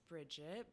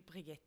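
First: The name has an English pronunciation. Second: The name has a Norwegian pronunciation. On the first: The speaker calls it wrong. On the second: The speaker calls it right.

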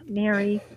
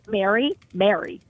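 First: The name is said in a disappointed tone. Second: The name is said in a worried tone. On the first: The speaker is let down. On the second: Something is wrong. "which tells you, I'm worried"

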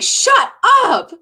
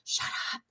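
First: It sounds excited and joyful. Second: It sounds scared and fearful.

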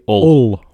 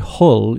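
First: The word starts without an h sound. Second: The word starts with an h sound. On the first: The speaker calls it right. "you say Ull" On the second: The speaker calls it wrong. "You don't say Hull"

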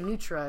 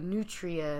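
First: The word is said quickly with a syllable dropped. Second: The word is said with every syllable pronounced. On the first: This is how locals say it. "We say nutra because I guess we say it quickly" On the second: This is how it is said in commercials. "they say it all out"

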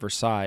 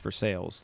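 First: The name is said the standard, non-local way. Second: The name is said the Pittsburgh local way. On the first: "it's not Versailles" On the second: "in Pittsburgh, for instance, it's Versailles. Like that is how we say it"

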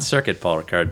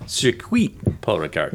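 First: Circuit is said with an English pronunciation. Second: Circuit is said with a French pronunciation. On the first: The speaker calls it wrong. "Not Circuit Paul Ricard" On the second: The speaker calls it right. "but Circuit Paul Ricard. It's Quip"

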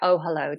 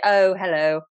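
First: The vowel in hello is soft and natural. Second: The vowel in hello is strongly exaggerated. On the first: The speaker calls it right. "just normal" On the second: The speaker calls it wrong. "that's a bit much. Pull it back"

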